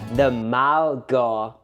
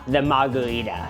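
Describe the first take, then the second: First: It is said slowly and deliberately. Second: It is said at a normal conversational pace.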